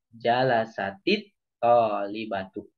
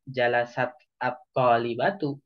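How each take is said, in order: First: The two words are joined with a linking 'i'. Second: The two words are said without a linking vowel. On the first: The speaker calls it right. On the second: The speaker calls it wrong. "jangan di, dibaca"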